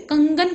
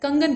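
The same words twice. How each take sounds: First: The first syllable has a long, heavy nasal sound. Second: The word is said quickly with a light nasal. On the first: The speaker calls it wrong. "कंगन कोई नहीं कहता है" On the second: The speaker calls it right. "जल्दी से बोल देते हैं ना"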